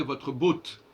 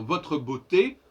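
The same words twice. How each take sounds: First: "botte" in one syllable ending on t; final é dropped. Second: "beauté" in two syllables, bo-té; final é sounded. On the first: Teacher shows beauté without its accent, said as one-syllable "botte". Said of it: "s'il n'y avait pas le E accent aigu". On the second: Teacher reminds of the accent aigu, "beauté" ending in a clear té. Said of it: "faut retenir dire votre beauté". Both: Shown as a demonstration.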